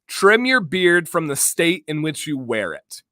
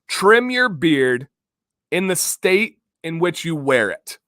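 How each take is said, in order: First: It is said at normal speed. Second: It is said a little more slowly.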